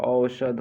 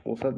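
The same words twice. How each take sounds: First: औषध said as "au-shadh", with sh; correct pronunciation. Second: औषध said as "osad", plain s; mispronounced word. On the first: Teacher correcting students, औषध as "au-shadh". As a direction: clear "au" and "sh" in औषध. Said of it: "औषध होता है". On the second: Teacher showing students the mistake, औषध as "osad". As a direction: flatten औषध to "o-sad". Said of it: "औषध नहीं होता". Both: Shown as a demonstration.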